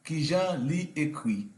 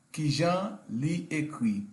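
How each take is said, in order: Both takes have the same delivery.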